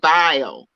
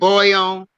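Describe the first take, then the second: First: The vowel is an 'eye' sound. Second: The vowel is an 'oy' sound. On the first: This is how the speaker's own community says it. "we say bio" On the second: This is the usual way most people say it. "instead of saying boil"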